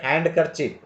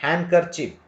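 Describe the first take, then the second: Both takes have the same delivery.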